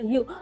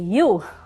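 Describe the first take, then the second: First: It is said with surprise. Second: It is said sarcastically.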